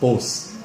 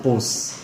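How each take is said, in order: First: The vowel is a long O sound. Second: The same.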